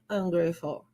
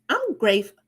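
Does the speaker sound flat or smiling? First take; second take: flat; smiling. First: It is said flatly, without a smile. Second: It is said brightly, with a smile. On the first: The speaker calls it wrong. "I don't say I'm grateful" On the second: The speaker calls it right. "Automatically, you are smiling"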